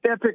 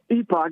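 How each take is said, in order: First: The second syllable sounds like 'pick'. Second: The second syllable sounds like 'pock'. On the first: "you can pronounce it epic or epoch" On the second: "you can pronounce it epic or epoch"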